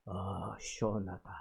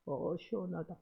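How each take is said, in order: First: Low, soft, breathed-out "시원하다" falling away; quiet, low relieved murmur with a falling end; hushed sigh of relief. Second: "시원하다" lifted and leaned on, but very soft; a hushed, stressed "어, 시원하다" at usual pitch; soft stressed relief. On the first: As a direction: sigh "아, 시원하다" softly, like relief under the blows. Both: Retold or imitated. Pastor beaten, quoted sighing relief.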